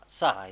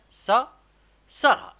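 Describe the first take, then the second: First: Said in the usual way. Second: سارة called out high and loud; excited loud reading. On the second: Shown as a demonstration. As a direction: sound out سا then shout سارة proudly. (قراءة سارة بصوت عالٍ ومرتفع) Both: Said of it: "on va écrire ça".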